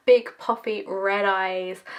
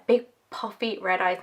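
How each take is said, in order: First: Big puffy red eyes drawn out slowly, each word leaned on; slow it down and land every word of Big puffy red eyes; slow emphatic repeat. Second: Said in the usual way. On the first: Shown as a demonstration. Repeating her crying face to viewers, slow and emphatic. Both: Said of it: "I'm the ugliest crier ever".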